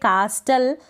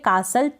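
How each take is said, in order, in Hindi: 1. बीच में t की आवाज़ बोली जाती है। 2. बीच में t की आवाज़ साइलेंट रहती है। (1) "कास्टल पढ़ेंगे नहीं" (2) "टी यहाँ पर साइलेंट है"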